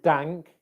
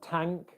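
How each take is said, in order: First: The word begins with a d sound. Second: The word begins with a t sound. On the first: "we don't want dank" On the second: "it's going to sound more like a t or a d. So we don't want tank"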